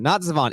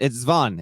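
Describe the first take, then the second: First: A vowel separates the first two consonants. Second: The first two consonants run together without a vowel. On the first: The speaker calls it wrong. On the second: The speaker calls it right.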